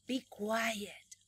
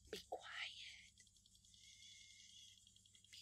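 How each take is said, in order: First: Said in the usual way. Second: Whispered "Be quiet"; whispered command to be quiet. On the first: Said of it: "exagerado para pronunciar". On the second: Shown as a demonstration. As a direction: hush the class in a whisper. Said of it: "lo exagerada que soy".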